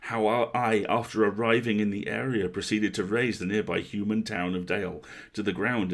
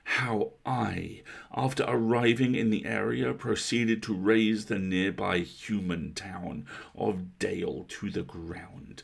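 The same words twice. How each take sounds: First: A put-on voice without heavy over-enunciation. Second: A put-on voice with every word heavily over-enunciated. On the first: It imitates one particular actor. The speaker calls it wrong. "that's Richard Armitage doing it" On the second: It imitates a different actor. The speaker calls it right. "just over-enunciate everything"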